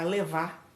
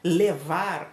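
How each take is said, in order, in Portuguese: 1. O R final é omitido. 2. O R final é claramente pronunciado.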